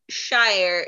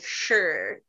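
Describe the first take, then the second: First: The suffix rhymes with 'fire'. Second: The suffix sounds like the word 'sure'. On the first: The speaker calls it wrong. "normally it's not shire" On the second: The speaker calls it right. "it's like sure"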